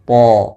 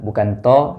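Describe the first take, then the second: First: The sound is thick with no breath flowing. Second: The sound is thin and light. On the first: The speaker calls it right. "tapi dibaca dengan to" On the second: The speaker calls it wrong. "dibaca dengan tebal, bukan to"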